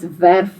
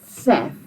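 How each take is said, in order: First: Verf said wrongly with an English V; wrong V sound. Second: Verf said rightly, its V sounded as F; correct F sound. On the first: Teacher mimics the wrong verf that high school kids say. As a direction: verf starting with a buzzing V like English. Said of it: "kids in high school that still would call this". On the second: Teacher gives the correct Afrikaans verf. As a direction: verf with a voiceless F at the start. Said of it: "instead of". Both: Shown as a demonstration.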